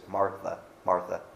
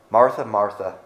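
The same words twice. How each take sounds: First: Martha, Martha said softly and tenderly, a patient call; gentle Jesus tone. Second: Said in the usual way. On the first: Shown as a demonstration. Jesus gently calling worried, busy Martha, soft and tender. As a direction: call her name gently, like a loving friend. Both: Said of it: "I have to wonder what the tone of voice is".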